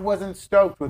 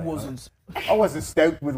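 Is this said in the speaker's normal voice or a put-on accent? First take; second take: normal voice; put-on accent. First: Spoken in the speaker's own normal accent. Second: Spoken in a put-on Australian-style accent.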